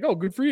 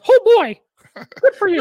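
First: It is said in his normal voice. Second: It is said in a Mickey Mouse voice.

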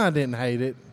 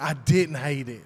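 First: The phrase is said in a lukewarm tone. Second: The phrase is said in an enthusiastic tone. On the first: The movie was just okay. "if I didn't hate it, it was okay, I'm like, well" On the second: The speaker loved the movie. "And then if I love it, I'm like"

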